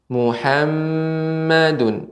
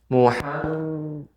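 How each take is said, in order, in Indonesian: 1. Huruf m ganda berdengung penuh. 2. Huruf m ganda terdengar tertutup, hidung dipencet. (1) "gunnah yang paling sempurna" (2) "ketika kita ya pencet hidung kita, maka dia tidak akan sempurna"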